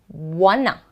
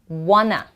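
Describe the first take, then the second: No difference in how they are said.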